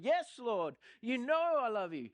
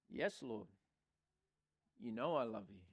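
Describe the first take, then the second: First: It is said in an annoyed, angry tone. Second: It is said in a calm, plain tone.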